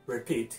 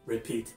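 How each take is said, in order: The two takes are said the same way.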